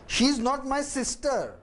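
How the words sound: The stress falls on the word sister. She is not my sister but my girlfriend.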